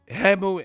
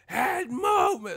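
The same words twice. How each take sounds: First: Said once, calmly, at normal volume. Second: Loud and rising, with panic in the voice. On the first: The fighter fixes the problem after one reminder. The speaker calls it right. "you would just be like head movement and then she fixes it" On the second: The fighter keeps failing to fix the problem. The speaker calls it wrong. "keep saying it worse and it's crescendoing"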